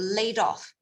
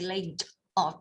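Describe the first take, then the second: First: The d runs straight into 'off'. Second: The d is kept apart from 'off'. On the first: The speaker calls it right. "The D and off would be together" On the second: The speaker calls it wrong. "you don't say laid off"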